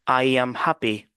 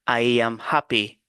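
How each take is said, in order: No difference in how they are said.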